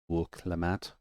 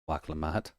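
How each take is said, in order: First: The first vowel sounds like 'oo'. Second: The first vowel sounds like 'ah'. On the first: The speaker calls it right. "there's a W or a U" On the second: The speaker calls it wrong. "I thought that was an A"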